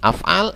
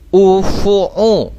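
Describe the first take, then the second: First: The word is read with two a vowels. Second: The word is read with u vowels throughout. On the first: The speaker calls it right. "Harus mengikuti wazannya ini. Af'al" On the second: The speaker calls it wrong. "tidak boleh kita baca misalnya ufu'u"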